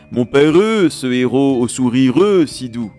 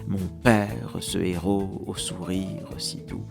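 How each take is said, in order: First: The mute e syllables are heavily stressed. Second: The mute e syllables are light and unstressed. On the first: The speaker calls it wrong. "Ce n'est pas ... sauf si on est [name]" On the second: The speaker calls it right. "Il faut lire les E diminués, mais ne pas les accentuer"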